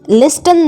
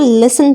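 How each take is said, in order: First: The word is said with a t sound. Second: The word is said without a t sound. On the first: The speaker calls it wrong. "लिस्टन नहीं पढ़ना है" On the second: The speaker calls it right. "इसको लिसन पढ़ेंगे"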